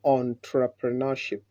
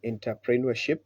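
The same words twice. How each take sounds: First: Entrepreneurship as "on-tra-pruh-nuh-ship"; the careful model of entrepreneurship; correct pronunciation. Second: Entrepreneurship as "in-tah-pree-nwer-ship"; the common mispronunciation of entrepreneurship; wrong way. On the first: Shown as a demonstration. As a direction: say entrepreneurship starting "on", with the "pre" unstressed. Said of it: "the correct way of pronouncing this word is". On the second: Retold or imitated. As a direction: say entrepreneurship with an "in" start and "pree" in the middle. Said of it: "many people say".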